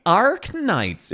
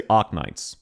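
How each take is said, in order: First: Arknights with a hard, pronounced R; American pronunciation. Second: Arknights with no R, an open Aussie ah; Aussie pronunciation. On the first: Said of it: "It's also the K". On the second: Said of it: "We say Arknights". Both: Shown as a demonstration.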